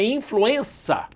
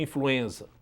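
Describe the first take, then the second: First: The consonant before the final vowel is an s. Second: The consonant before the final vowel is a z. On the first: The speaker calls it right. "é o som do C. Então a palavra é influenza" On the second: The speaker calls it wrong. "nós estamos falando errado influenza"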